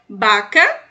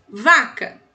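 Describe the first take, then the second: First: The word starts with a B sound. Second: The word starts with a V sound. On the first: "O V no espanhol tem som de B em alguns países" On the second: "Em outros países tem som de V mesmo"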